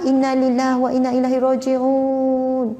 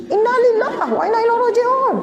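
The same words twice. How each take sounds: First: Said in the usual way. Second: Mock exasperated outburst. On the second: Shown as a demonstration. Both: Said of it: "Ha, ke tinggi sikit".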